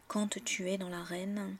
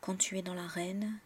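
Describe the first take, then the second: First: Quand is said the southern French way. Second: Quand is said plainly, the standard way. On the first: "dans le sud de la France, on a vraiment tendance à prononcer quand très souvent" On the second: "on prononce juste quand"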